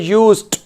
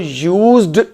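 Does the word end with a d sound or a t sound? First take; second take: t sound; d sound. First: The word ends with a t sound. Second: The word ends with a d sound. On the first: The speaker calls it right. "उसका pronunciation होता है यूज्ड, यूएसईटी जैसे लिखा हो" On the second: The speaker calls it wrong. "यूएसईडी को यूज्ड नहीं पढ़ना"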